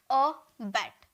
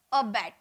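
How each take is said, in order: First: "अ बैट" split into two beats, a gap after अ; two separate syllables. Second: Said in the usual way. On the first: Shown as a demonstration. Teacher showing students the two sounds in "अ बैट", syllable by syllable. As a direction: say अ, pause, then बैट in "अ बैट". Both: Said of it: "दो बार sound निकल रहा".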